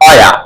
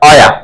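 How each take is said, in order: Both takes have the same delivery.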